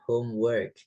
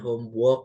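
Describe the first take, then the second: First: The vowel in 'work' sounds like 'e'. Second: The vowel in 'work' sounds like 'o'. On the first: The speaker calls it right. "tapi E" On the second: The speaker calls it wrong. "Jangan homework ya, bukan O"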